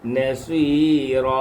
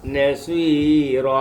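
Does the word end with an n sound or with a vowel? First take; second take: vowel; vowel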